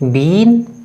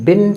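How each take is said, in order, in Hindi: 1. यह शब्द लंबी 'ee' ध्वनि के साथ बोला जाता है। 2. यह शब्द छोटी 'i' ध्वनि के साथ बोला जाता है। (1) "बिन को बीन प्रोनाउंस नहीं किया जाता" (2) "उसे बिन प्रोनाउंस किया जाता है"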